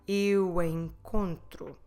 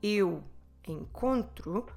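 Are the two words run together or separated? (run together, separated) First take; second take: run together; separated. First: The two words are run together. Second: The two words are said separately. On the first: "we like to run vowels together" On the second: "instead of saying"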